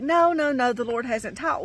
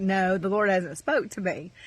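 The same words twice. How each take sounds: First: High, repeated refusal, easing off; retold protest. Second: Said in the usual way. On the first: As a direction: protest with a raised, hurried "No, no". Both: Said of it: "And I was like".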